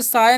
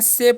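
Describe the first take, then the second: First: The vowel sounds like 'eye'. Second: The vowel is a long 'ay'. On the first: The speaker calls it wrong. "इसे साय नहीं पढ़ना है" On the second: The speaker calls it right. "से पढ़ना है। ... ए का उच्चारण थोड़ा देर तक होता है"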